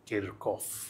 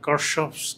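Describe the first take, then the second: First: The name has a k sound in the middle. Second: The name has an sh sound in the middle. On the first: This is the actual pronunciation. The speaker calls it right. "এটার actual উচ্চারণ হচ্ছে কিরকফ" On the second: This is how the listeners usually say it. The speaker calls it wrong. "যেটার উচ্চারণ তোমরা করো সম্ভবত কারশফস"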